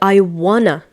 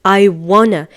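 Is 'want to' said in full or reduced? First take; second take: reduced; reduced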